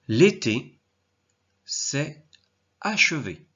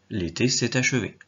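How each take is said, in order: First: S'est and achevé are said without a linking t. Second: A t sound links s'est to achevé.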